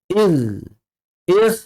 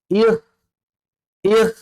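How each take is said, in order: No difference in how they are said.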